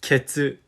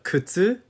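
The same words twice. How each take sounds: First: "Ketsu" said with an e, keh-tsu instead of kutsu; keh-tsu, the slip of the tongue; "Ketsu" with keh in place of koo; wrong word. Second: "kutsu" said with a clear u and ts sound, koo-tsu; "kutsu", the correct ku-tsu; right word. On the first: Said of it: "he said". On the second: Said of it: "wanted to compliment a lady on her shoes". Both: Shown as a demonstration.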